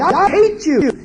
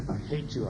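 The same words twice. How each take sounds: First: I hate you flung out high and loud. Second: I hate you muttered soft and low. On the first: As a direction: shout hate at the parent. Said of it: "child said to you". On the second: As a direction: grumble it to yourself. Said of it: "They're saying". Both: Retold or imitated.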